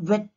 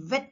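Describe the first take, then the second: First: "wet" begun with a rounded W; "wet" with no teeth on the lip; W sound. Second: "Wet" begun with V, as vet; "Wet" with a clear V onset; V sound. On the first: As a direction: lips forward to start "wet". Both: Shown as a demonstration. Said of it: "sound also differs".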